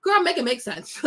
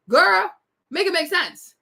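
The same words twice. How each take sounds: First: Said in the usual way. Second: Put-on "Girl" burst out louder and higher through a laugh; laughing repeat. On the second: Shown as a demonstration. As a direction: laugh out "Girl", then finish it.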